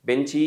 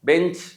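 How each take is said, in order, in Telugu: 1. పదం చివర అదనపు అచ్చు ఉంటుంది. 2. పదం చివరి హల్లుతోనే ముగుస్తుంది. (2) "బెంచ్ అనాలి"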